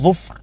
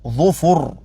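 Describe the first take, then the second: First: The second consonant has no vowel after it. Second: The second consonant has a short u vowel. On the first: The speaker calls it wrong. "لا تقل ظفر" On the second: The speaker calls it right. "الفاء مضمومة"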